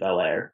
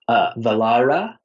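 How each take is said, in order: First: The name is said in an American way. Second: The name is said in a non-American way. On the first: This is a casual, informal pronunciation. "it's really American" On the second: This is the formally correct pronunciation. "the technical pronunciation, which I feel so pretentious to say"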